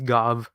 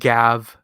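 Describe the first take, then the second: First: The vowel sounds like the one in 'got'. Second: The vowel sounds like the one in 'gap'. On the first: The speaker calls it right. "it's supposed to be pronounced Gov" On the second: The speaker calls it wrong. "and not Gav"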